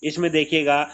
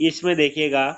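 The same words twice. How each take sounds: Both takes have the same delivery.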